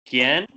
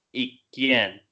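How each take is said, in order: First: ¿Quién stressed and rising, a bit louder; questioning quién. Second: Quién dropping at the end; falling quién. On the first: Student tries the accented question word. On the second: Student contrasts the unaccented quién. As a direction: let quién fall flat. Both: Shown as a demonstration. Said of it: "¿Es eso lo que está pasando?".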